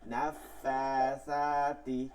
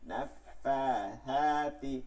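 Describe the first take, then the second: First: The consonant before the last vowel is an 's' sound. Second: The consonant before the last vowel is a 'th' sound. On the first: The speaker calls it wrong. "আমরা অনেকে এখানে যাই বলে কি নাফা সাতি, সাতি হইলে তো সিন হয়" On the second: The speaker calls it right. "ফায়ের উচ্চারণটা করতেছি মাখরাজ থেকে"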